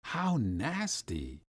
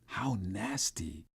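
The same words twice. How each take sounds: First: Quieter voiced repeat, drawn out; soft, slow disgust. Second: Breathy unvoiced whisper, slow; hushed disgust under the breath. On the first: Boy repeating his disgust at oysters, softly. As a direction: let the disgust sink in softly. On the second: Boy whispering his disgust at oysters. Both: A narrator's reading. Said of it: "I whispered".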